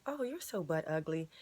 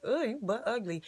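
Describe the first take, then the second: First: Flat, pointed put-down meant to sting; cutting insult. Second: Light joking jab, a little louder; playful tease. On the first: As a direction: say it like you mean the insult. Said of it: "you'll actually start to think that you're butt ugly". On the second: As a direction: toss it off as a joke, teasing. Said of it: "you're not even gonna think about what I said". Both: Shown as a demonstration.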